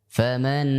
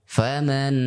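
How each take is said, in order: The two takes are said the same way.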